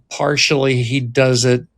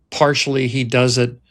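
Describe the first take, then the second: No difference in how they are said.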